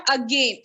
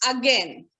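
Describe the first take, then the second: First: "again" as a-gain, like rain; wrong pronunciation. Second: "again" as a-gen, like pen; right pronunciation. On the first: Teacher showing the wrong form, again said as a-gain. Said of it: "It's not again". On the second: Teacher correcting the class, again said as a-gen. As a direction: rhyme again with pen, lower and falling. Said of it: "It's again". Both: Shown as a demonstration.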